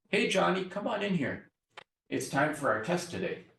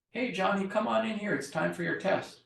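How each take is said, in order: First: High, agitated call to Johnny; high tense voice calling a kid in for a test; hyperaroused teacher. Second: High call to Johnny again; same call, meant to meet a zoned-out kid; high call for the test; spaced-out response. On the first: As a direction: call Johnny in sharp and keyed up. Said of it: "What that means is angry". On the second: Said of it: "that's the spaced out, zoned out". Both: Shown as a demonstration.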